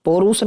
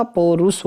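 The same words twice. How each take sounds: First: पौरुष run together, po-roos; wrong pronunciation. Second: पौरुष split as po-rus; corrected pronunciation. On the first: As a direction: say पौरुष quickly as one word. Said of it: "नहीं होता". (पौरुष को मिलाकर बोलें) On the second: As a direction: separate the two syllables of पौरुष. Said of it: "होता है". (पौरुष में 'पौ' और 'रुष' अलग बोलें) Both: Shown as a demonstration.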